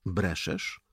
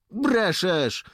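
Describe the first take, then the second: First: Said in the usual way. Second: High, loud flat-out denial; contradicting. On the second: A narrator's reading. Dońka disputes Jakub before the lieutenant, contradicting. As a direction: contradict him loudly, pitch jumping up. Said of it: "zaprzeczył Dońka".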